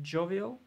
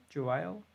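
First: JOVIAL said as JOH-vee-ul, rising; "Jovial" as JOH-vee-ul, like a question; tentative pronunciation. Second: JOVIAL said as joh-VY-ul, rising; "Jovial" as joh-VY-ul, like a question; alternative pronunciation. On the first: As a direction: try "Jovial" with an ee in the middle, questioning. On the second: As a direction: try "Jovial" with an eye sound in the middle, questioning. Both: Shown as a demonstration. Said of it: "how to pronounce it".

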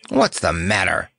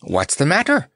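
First: Gruff demand. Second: High, puzzled clown question; Notta. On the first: Lion challenging his laughing friend, gruff. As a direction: demand it gruffly, without lifting the pitch. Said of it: "demanded the Cowardly Lion gruffly". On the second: Clown asking the lion what is wrong, high-voiced. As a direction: ask it lightly, pitched well up. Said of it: "asked Notta". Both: A narrator's reading.

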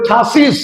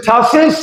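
First: ঠাসিস ending in "-siz"; new "-iz" ending. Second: ঠাসেস ending in "-ses", rising; old "-es" ending. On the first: Teacher showing the corrected way, ঠাসিস with "-siz". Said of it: "এখন বলবো". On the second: Teacher recalling the earlier way, ঠাসেস with "-ses". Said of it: "আগে বলেছি". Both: Shown as a demonstration.

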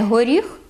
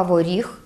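First: Said in the usual way. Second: Воріг said as "vorikh"; dialect в for г. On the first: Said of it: "Не горіх". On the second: Shown as a demonstration. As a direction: Podillia воріг, v in place of h. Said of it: "переходить у звук «в»".

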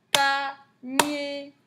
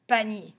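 First: Panier higher, in two separate held beats; slow teacher's split of Panier; syllable by syllable. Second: Said in the usual way. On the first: Shown as a demonstration. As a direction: tap out PA, then NIER.

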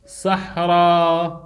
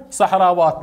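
First: صحراوات slow and low, in long held parts; drawn-out demonstration. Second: Said in the usual way. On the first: Shown as a demonstration. Teacher builds the feminine plural for students, slow drawn-out demonstration. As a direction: stretch صحراوات out low, part by part.

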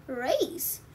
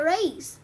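First: Soft rising "Race?" in disbelief; surprised question. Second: Said in the usual way. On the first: A narrator's reading. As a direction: ask "Race?" softly, rising at the end. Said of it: "said Zippy". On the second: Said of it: "explained Rusty".

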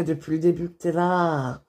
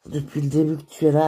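First: Said in the usual way. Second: Repeated faster, with weight on "es"; quicker, heartfelt second take; sincere restatement. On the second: Acted. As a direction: say it again and lean on "es".

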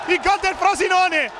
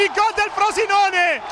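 First: High but easing second call; repeated goal call. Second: Much higher, slow shouted goal call; breathless italian goal commentary. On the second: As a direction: bellow gol, stretched out. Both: Real, not acted.

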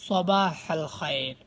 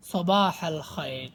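The two takes are said the same way.

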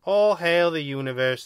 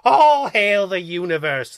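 First: Mildly whimpered, subdued salute; sad whimper. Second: "All hail the universe" slow, loud and raised; emphatic. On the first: Second alien beaten by the rulebook, sad whimper. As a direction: whimper it a little, giving in sadly. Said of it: "the second voice whimpered sadly". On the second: Second alien proving loyalty, emphatic on "All hail the universe". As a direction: stretch "All hail the universe" out loudly, hitting ALL. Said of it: "the second voice said emphatically". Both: A narrator's reading.

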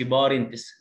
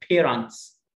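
First: بارنتس with an open A, not long A; mispronounced vowel. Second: Drawn-out بيرنتس with a long A first syllable. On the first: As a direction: say بارنتس with an 'ah' in the first syllable. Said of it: "ما اقولش بارنتس زي ما بنسمع". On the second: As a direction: say بيرنتس slowly as 'pay-rents'. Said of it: "الايه هنا لونج ايه". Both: Shown as a demonstration.

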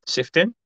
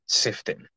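First: Puzzled question. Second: "Sifting." breathed almost silently to self; whispered to self. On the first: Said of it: "You're only ju". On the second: Host quietly rereads a viewer's name, whispering. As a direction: mouth the name "Sifting" softly, unvoiced. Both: Real, not acted.

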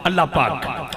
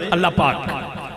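No difference in how they are said.

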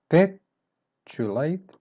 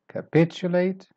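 First: "Capitulate" slowly broken up as ca, PIT, ulate; syllable by syllable. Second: "Capitulate" in one piece, high on the second syllable; stress on PIT. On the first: Teacher breaking the word down, "Capitulate" in slow separate parts. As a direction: pause around the stressed "pit" in "Capitulate". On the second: Teacher modelling the stress syllable, "Capitulate" said whole with "pit" stressed. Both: Shown as a demonstration. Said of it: "the stress syllable here is pitch".

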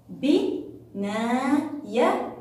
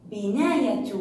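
First: Slow, drawn-out بناية, each syllable held; stretched syllables. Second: Said in the usual way. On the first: Shown as a demonstration.

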